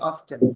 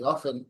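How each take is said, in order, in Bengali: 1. এটা স্পষ্ট 't' শব্দ দিয়ে বলা হয়। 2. এটা 't' শব্দ ছাড়া বলা হয়। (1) "অফটেন বললে আপনি সাউন্ড যোগ করতেছেন, আপনি একটা ধাক্কা মারতে পারতেছেন" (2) "অফেন বললে বাতাসটা ফুস করে বেরোয় যায় মুখ থেকে"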